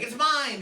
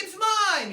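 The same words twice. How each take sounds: First: Raised, loud possessive protest; acted first shot in a squabble; mock sibling squabble. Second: Very high, loud bratty retort; hammed-up squealed claim; escalated sibling squabble. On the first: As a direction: claim it loudly in a playful re-enacted fight. Brothers fight over couch seat. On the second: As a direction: top your brother with a shrill mock yell. Brother escalates the fight.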